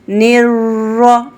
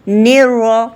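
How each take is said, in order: First: The r is trilled many times. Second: The r is trilled only once or twice. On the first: The speaker calls it wrong. "ये गलत है।" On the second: The speaker calls it right. "ये तो ठीक है।"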